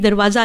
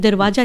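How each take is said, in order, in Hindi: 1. बीच का व्यंजन 'z' की ध्वनि है। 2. बीच का व्यंजन 'j' की ध्वनि है। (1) "दरवाज़ा है" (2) "दरवाजा नहीं"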